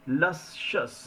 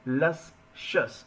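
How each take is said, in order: No difference in how they are said.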